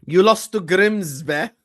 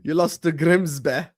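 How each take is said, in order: First: Slow, louder mocking taunt. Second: Said in the usual way. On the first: Real, not acted. Streamer taunting a friend who lost to Grimsby, slow and mocking. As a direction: drag it out to rub it in.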